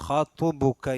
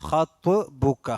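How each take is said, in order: Both takes have the same delivery.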